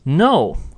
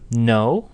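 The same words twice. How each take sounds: First: The pitch falls sharply. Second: The pitch rises. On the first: It is an angry or final refusal. "if you said it with that sharp falling tone" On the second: It is a question showing surprise or curiosity. "No in a rising tone kind of indicates indicates a question"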